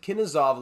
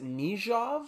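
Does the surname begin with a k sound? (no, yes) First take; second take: yes; no. First: The name begins with a k sound. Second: The name begins with an n sound. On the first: The speaker calls it wrong. "I pronounced it Kinizov last episode" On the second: The speaker calls it right. "I believe it's pronounced Nijov"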